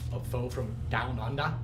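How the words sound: It is said in a put-on Australian accent.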